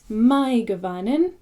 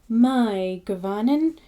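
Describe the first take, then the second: Both takes have the same delivery.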